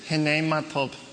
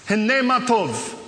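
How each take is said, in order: First: It is said quietly and timidly, with little energy. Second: It is said loudly and boldly, with big energy. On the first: The speaker calls it wrong. "you can't say like this. ... You can't do that" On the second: The speaker calls it right. "Everything's big, right?"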